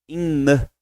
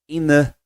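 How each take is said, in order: The two takes are said the same way.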